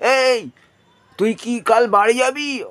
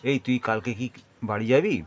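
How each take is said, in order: First: It is said at a raised, high pitch. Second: It is said at an ordinary, middle pitch. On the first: The listener is far away. "অর্থাৎ এটা ওপর দিকে উঠে গেল।" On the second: The listener is close by. "আর যেটা আমি করলাম সেটা সাধারণভাবে।"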